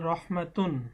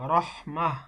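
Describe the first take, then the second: First: The word ends with the syllable 'tun'. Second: The word ends with a soft 'h' sound. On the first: The reader continues without stopping. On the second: The reader stops at this word.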